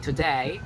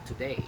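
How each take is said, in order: First: It is said in an Australian accent. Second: It is said in an American accent. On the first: "if you're trying to be Australian, you say today" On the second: "If you say it in a American, today"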